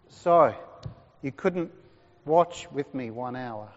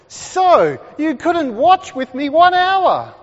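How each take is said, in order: First: It is said in a gentle, compassionate tone. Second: It is said in a stern, accusing tone.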